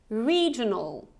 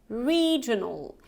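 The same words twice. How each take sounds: Both takes have the same delivery.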